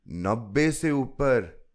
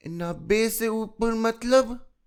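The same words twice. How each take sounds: First: Said in the usual way. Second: Put-on high, slow puzzled little girl; curious child. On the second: A narrator's reading. Chilki asks what over ninety means, high child voice. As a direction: echo it back as a small child, high.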